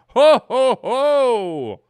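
It sounds awed and surprised. The speaker was caught off guard. "a little bit of awe and surprise"

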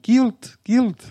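It is said in a high, squeaky voice.

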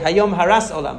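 It has an Ashkenazi s sound in Haras.

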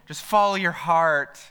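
It is said in a sweet, syrupy, sentimental way.

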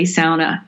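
It is said with an Upper Peninsula pronunciation. This reflects the Finnish and Scandinavian settlers' pronunciation. "in the UP, many people will say sauna"

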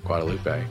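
It is said the general, Spanish-like way.

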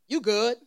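It sounds like a reassuring statement of being fine.

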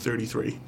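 The th sounds are said as full th sounds. This is how others say it. "instead of 33"

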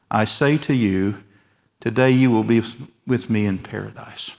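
The pause comes before the word today. The promise is for that same day. The speaker calls it right.

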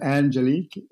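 The name is said with an English pronunciation. "So it's pronounced Angelique in English"

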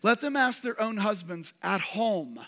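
The stress falls on the word 'home'. They should ask their husbands at home, not during the meeting. "ask their own husbands where? At home"

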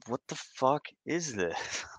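It sounds puzzled and questioning.

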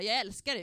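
It is said in a casual, offhand way.

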